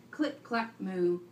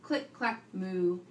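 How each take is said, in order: Both takes have the same delivery.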